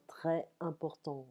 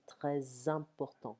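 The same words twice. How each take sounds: First: Très important with a silent S, the two words kept apart; without liaison. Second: Très important linked, the S of très sounding as Z; liaison with Z. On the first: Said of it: "Normally in French we say". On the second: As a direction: run très into important with a Z: trè-zimportant. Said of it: "The S of très leans into a following". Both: Shown as a demonstration.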